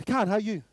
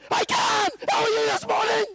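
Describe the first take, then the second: First: Said in the usual way. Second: Exaggerated shouting. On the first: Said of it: "It's that father-child conversation". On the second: Shown as a demonstration. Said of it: "I don't talk to my son like this".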